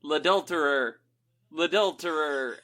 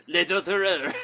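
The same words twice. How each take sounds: First: Half-hearted accusing cry, a bit louder; drawn-out playful shout; mock yell. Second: Loud, higher mock French accusation; hammed-up French accent shout. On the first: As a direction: call it out like a public accusation. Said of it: "I would just yell". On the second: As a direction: yell it with a put-on French accent. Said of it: "do it in a French accent".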